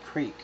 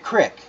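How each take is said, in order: First: The vowel is long, like in 'creek'. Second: The vowel is short, like in 'crick'. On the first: This is how locals say it. The speaker calls it right. "the creek" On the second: This is how city people say it. The speaker calls it wrong. "Not the crick"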